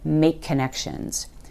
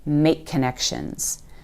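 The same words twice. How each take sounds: First: One linked k sound joins the words. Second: The same.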